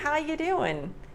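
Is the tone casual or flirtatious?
casual. It is said in a relaxed, casual way. It is a relaxed everyday greeting. "So I would say, hey"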